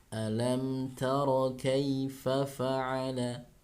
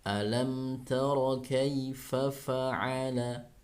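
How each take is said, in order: No difference in how they are said.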